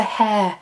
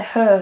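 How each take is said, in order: First: "hair" with an open air vowel; standard hair pronunciation. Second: "her" for hair, central er vowel; Manchester hair pronunciation. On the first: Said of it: "I don't say hair". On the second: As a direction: say "her" to rhyme with "fur". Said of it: "I say her". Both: Shown as a demonstration.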